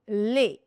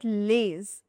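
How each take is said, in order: First: The final S is silent. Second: The final S is pronounced. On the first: The speaker calls it right. "this is les. The final letter S is silent" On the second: The speaker calls it wrong. "This is not les"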